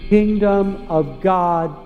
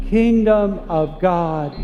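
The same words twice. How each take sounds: The two takes are said the same way.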